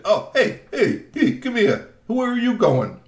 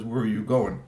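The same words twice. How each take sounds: First: Much higher and louder demanding call; loud troll voice. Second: Said in the usual way. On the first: Acted. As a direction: bark it out like a pushy troll. Troll Glad Rab calls GP back.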